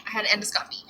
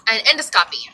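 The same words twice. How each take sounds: First: Whispered aside to herself. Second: Said in the usual way. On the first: Real, not acted. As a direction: breathe it out with no voice. Repeats the word as an aside.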